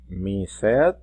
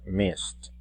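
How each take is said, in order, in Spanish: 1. La terminación se pronuncia como una sílaba extra. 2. La terminación es solo un sonido t. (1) "no se va a pronunciar mised" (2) "sino que se va a pronunciar missed"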